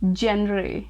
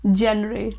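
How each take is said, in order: Both takes have the same delivery.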